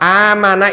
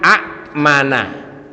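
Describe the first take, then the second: First: No inner glottal stop; the first vowel is long. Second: A second glottal stop is heard inside the word. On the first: This is the lightened form that is actually read. "tapi kita kenalnya amana" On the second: This is the word's original underlying form. "aslinya amana"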